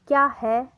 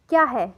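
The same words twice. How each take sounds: First: It is said with a different, marked tune. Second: It is said with an ordinary question tune. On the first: "एक अलग tune होगी" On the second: "आप normally बोलते हैं"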